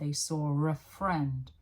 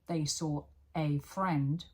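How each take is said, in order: First: The word a is weak and reduced. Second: The word a is said fully and clearly. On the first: "a changes completely in its pronunciation. It becomes weak" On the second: "instead of saying"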